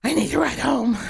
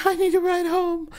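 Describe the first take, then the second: First: High, nervous plea for a lift; anxious plea. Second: Much higher, desperate plea for a ride. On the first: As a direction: ask for a ride home, a little scared. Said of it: "I go". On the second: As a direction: beg for a ride home, near panic. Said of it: "And finally I said". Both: Retold or imitated.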